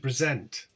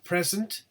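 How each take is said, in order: First: The stress is on the second syllable. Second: The stress is on the first syllable. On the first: It is used as a verb. "the verb is stressed on the second syllable" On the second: It is used as a noun. "the noun, as you can see, is stressed on the first syllable"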